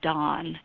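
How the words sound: The vowel is an open 'ah' sound. "They pronounce them Don"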